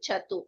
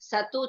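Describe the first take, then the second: First: The word begins with a 'ch' sound. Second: The word begins with an 's' sound. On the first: The speaker calls it right. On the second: The speaker calls it wrong.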